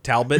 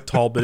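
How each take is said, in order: First: It is pronounced like the store's name. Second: It is pronounced the local county way. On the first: This names the store, not the county. The speaker calls it wrong. "Talbot is the store" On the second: This names the county. The speaker calls it right. "Talbot is the county"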